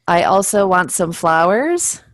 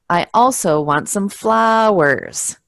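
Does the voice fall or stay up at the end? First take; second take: stays up; falls. First: The pitch does not go down at the end. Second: The pitch goes down at the end. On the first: The sentence sounds unfinished. The speaker calls it wrong. "it sounds very weird and not finished" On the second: The sentence sounds finished. The speaker calls it right. "it's going down at the end"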